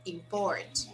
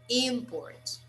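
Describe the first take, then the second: First: The stress is on the second syllable. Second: The stress is on the first syllable. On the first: It is used as a verb. "That's the verb" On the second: It is used as a noun. "It's a noun"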